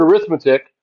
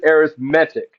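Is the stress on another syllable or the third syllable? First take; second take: another syllable; third syllable. First: The stress is not on the third syllable. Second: The stress is on the third syllable. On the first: It is the noun. "it looks like the word arithmetic" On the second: It is the adjective. "because it is an adjective, we pronounce it arithmetic. I'll put an accent on the E"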